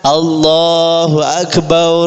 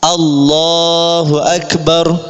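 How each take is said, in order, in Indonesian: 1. Ba dalam Akbar dibaca panjang. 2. Ba dalam Akbar dibaca pendek. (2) "cara takbirnya begini agar sholatnya sah"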